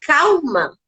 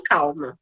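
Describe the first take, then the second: First: Said in the usual way. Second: "Calma" whispered softly; hushed calma. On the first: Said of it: "quando alguém fala". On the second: Shown as a demonstration. Mother showing the soothing word not to say, whispered. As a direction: breathe "Calma" out as a soft whisper. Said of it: "Não fala".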